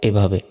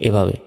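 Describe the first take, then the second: The two takes are said the same way.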